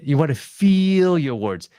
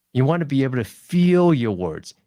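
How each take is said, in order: First: "feel" stretched long and pressed louder; elongated vowel. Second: Said in the usual way. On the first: Shown as a demonstration. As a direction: draw out the vowel in "feel" so you feel the word. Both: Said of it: "Elongate the vowel".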